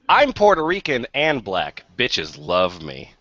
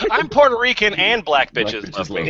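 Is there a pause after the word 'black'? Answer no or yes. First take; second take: yes; no. First: There is a pause after the word black. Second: There is no pause after the word black.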